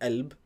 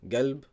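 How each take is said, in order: First: The word begins with a glottal stop. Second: The word begins with a hard g sound. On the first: This is the Egyptian dialect form. "qaf is a. It's like hamza" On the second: This is the Saudi dialect form. "the qaf it changes to a g"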